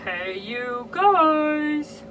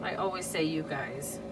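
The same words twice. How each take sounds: First: High, slow, loud drawn-out "Hey, you guys"; hammed-up Midwestern greeting. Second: Said in the usual way. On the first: Shown as a demonstration. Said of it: "Can you tell I'm from the Midwest?".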